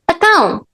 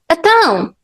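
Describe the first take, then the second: First: The first syllable is replaced by an 'a' sound. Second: The same.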